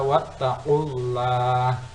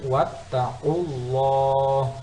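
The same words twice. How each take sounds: First: The l sound is light and thin. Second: The l sound is heavy and thick. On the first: The speaker calls it wrong. "Tidak boleh dibaca wattaqullah" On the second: The speaker calls it right. "tafhim, tebal"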